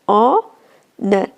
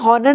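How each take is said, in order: First: The word begins with a vowel sound. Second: The word begins with an h sound. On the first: The speaker calls it right. "इसे पढ़ते ऑनर" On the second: The speaker calls it wrong. "हॉनर नहीं पढ़ते"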